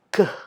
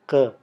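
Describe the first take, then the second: First: The k is released with a puff of air. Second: The k is released without a puff of air. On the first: "seperti ada letupan" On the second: "bunyi K biasa"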